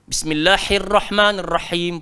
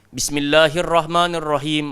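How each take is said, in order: First: The Arabic sounds are heavily overdone and exaggerated. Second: All the h sounds are said the same way. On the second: "semua jadi ha simpul, semua jadi ha pedas. Tak betul"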